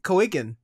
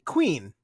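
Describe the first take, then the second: First: The word is said as two syllables, like coigan. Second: The word is said as one syllable, like queen. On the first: "that's how I pronounced it the first time" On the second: "they decide to pronounce it Queen"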